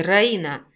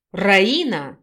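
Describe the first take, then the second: First: Раина called out reproachfully, falling; hurt man accusing Раина, mildly voiced; accusing wail. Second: Louder, outraged call of her name Раина with a falling end; indignant man shouting Раина, a touch louder. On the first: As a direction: wail her name as a reproach. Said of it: "обвиняющим тоном взвыл Виджай". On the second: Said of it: "с возмущением прикрикнул он". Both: A narrator's reading.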